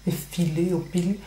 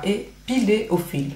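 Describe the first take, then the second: First: "effiler" said with an f instead of a p; "effiler au fil" with a soft f sound, a tongue slip. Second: "épiler" said slowly with a clear p; slow, deliberate "épiler au fil", the p stressed; careful correction. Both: Real, not acted. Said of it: "n'importe quoi".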